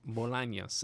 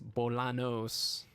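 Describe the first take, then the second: First: The middle consonant is an ny sound. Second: The middle consonant is a plain n sound. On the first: The speaker calls it right. "but it's Bolaños" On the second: The speaker calls it wrong. "you would read it and you think it's Bolanos"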